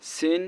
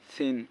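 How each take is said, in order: First: সিন with a strong hissed S; sharp sin S. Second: সিন said as a soft "thin"; soft tha. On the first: Teacher drilling sin against tha, sharp S. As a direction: hiss the first sound of সিন. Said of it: "স এরকম". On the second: Teacher drilling tha against sin, soft TH. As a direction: lisp the start of সিন gently as TH. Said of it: "সা নরম". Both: Shown as a demonstration.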